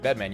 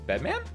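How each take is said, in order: First: The voice stays level or falls at the end. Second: The voice rises at the end. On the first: It is read as a plain name. The speaker calls it wrong. "you don't typically read Bedman" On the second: It is read as a question. The speaker calls it right. "read as a question"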